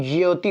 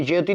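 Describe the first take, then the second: First: "ज्योति" opened out as ja-yo-ti; correct form demonstrated. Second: "ज्योति" run together as jyoti; wrong form demonstrated. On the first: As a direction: stretch "ज्योति" with a separate yo. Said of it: "ज्योति होता है". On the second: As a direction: say "ज्योति" compactly in two syllables. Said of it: "ज्योति नहीं". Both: Shown as a demonstration.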